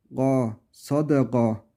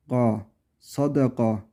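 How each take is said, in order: First: Sadega'daki ga boğazdan g; ga, sadega: K değil gırtlak g; Arabic ghain. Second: Sadega, ga gırtlaktan; Ga, sadega yumuşak boğaz g'si; Arabic ghain. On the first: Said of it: "G harfi gibi düşünecektik". (sadega'yı G gibi söyle) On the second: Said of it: "yani K değil". (K değil G ile sadega) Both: Shown as a demonstration.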